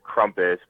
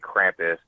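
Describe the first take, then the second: First: The name is said with a German vowel. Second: The name is said with an American vowel. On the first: "Crumpus is basically a German word" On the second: "in America they say Krampus"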